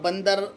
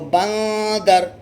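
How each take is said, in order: First: The n is a plain, short consonant. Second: The n is hidden in a held nasal sound. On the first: The speaker calls it wrong. "यहाँ पर बंदर पढ़ना गलत होगा" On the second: The speaker calls it right. "नून साकिन में गुन्ना करना होगा"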